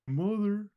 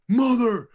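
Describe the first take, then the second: First: It is said quietly and flatly. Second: It is shouted loudly.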